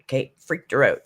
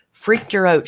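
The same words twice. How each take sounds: First: Said in the usual way. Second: Freaked her out with a sharp high punch on her, louder; emphatic repeat. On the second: Retold or imitated. Retelling the viewer's scare, punching her in Freaked her out. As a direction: land hard on her in Freaked her out. Repeating the phrase, now hammered.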